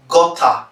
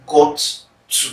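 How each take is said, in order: First: "gutter" as gotta, two words run into one; casual contraction. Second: "got to" as two separate words; uttered completely. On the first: Teacher showing the usual habit, "gutter" run together as gotta. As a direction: blend got and to into "gutter". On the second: Teacher showing full enunciation, "got to" pronounced in full. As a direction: sound both t's in "got to", with a gap between. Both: Shown as a demonstration. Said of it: "instead of".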